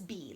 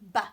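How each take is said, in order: First: The syllable has a full 'ee' vowel. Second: The syllable has a reduced schwa vowel. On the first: The speaker calls it wrong. "Let's not pronounce it as be" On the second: The speaker calls it right. "Let's pronounce it b"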